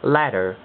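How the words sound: It has a soft t, between t and d. "變成美式嘅口音"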